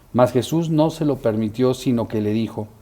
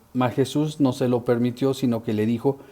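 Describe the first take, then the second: Both takes have the same delivery.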